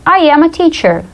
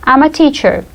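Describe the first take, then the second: First: "I am a teacher" with I and AM as separate words, pitched up; full form. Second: "I'm a teacher" with I'M run together; contracted form. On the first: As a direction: say "I am" in full, as two clear words. Full form before contraction. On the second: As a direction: shorten to "I'm" in one syllable. Contraction after full form. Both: Shown as a demonstration.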